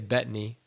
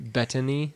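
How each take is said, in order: First: The name is said quickly and casually. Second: Every sound of the name is carefully enunciated. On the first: "I say Bettany" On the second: "you don't have to enunciate it like that"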